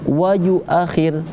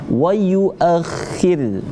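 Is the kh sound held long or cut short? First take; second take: short; held. First: The kh sound is cut short, not held. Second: The kh sound is held in the throat. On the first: The speaker calls it wrong. "Tidak kita baca wa yuakhir, tidak" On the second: The speaker calls it right. "huruf kho-nya ditahan dulu di situ"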